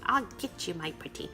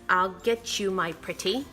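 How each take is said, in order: First: It is said in a put-on witch voice. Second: It is said in her normal voice.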